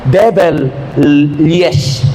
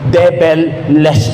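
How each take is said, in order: First: The surname ends with a 'yes' sound. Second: The surname ends with a 'less' sound. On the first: He once said yes to the devil. The speaker calls it wrong. "Nag-yes ako noon sa demonyo" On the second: The devil is gone from his life. The speaker calls it right. "yung pronunciation pala nun, hindi yun"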